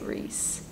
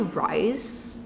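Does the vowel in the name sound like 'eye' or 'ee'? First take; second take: ee; eye. First: The vowel sounds like the 'ee' in Reese. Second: The vowel sounds like the 'eye' in rice. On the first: The speaker calls it wrong. "I don't say Reese" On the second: The speaker calls it right. "I say Rice"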